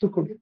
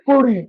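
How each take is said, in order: First: The word is said quietly and timidly. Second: The word is said loudly and proudly. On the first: The speaker wants to hide this part. "পরের কুড়িটা ইনঅডিবলি মিউটলি টিমিডলি silently" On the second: The speaker is happy to admit this part. "প্রথম কুড়িটা loudly proudly অডিবলি"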